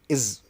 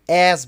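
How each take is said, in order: First: The word is said in a reduced form. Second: The word is said in its full form.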